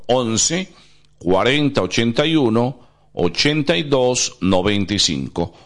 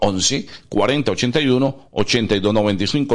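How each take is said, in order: First: The number is said slowly. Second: The number is said at normal speed.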